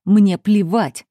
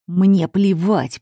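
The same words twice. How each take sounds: First: Slow, weighty "Мне плевать"; flat defiance. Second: Defiant refusal. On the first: Father refusing to care about the heroine's limits, slow and cold. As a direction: drag out "Мне плевать" coldly. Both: A narrator's reading. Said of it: "произнёс отец Виолетты".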